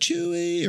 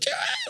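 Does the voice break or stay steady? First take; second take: steady; breaking. First: The voice stays steady and even. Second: The voice cracks and breaks with emotion.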